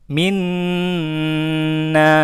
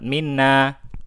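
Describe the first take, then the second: First: The nasal n sound is held long. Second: The nasal n sound is said quickly. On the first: The doubled letter can be heard. The speaker calls it right. "Ditahan ya" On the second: It sounds as if there is no doubled letter. The speaker calls it wrong. "Jangan cepat-cepat"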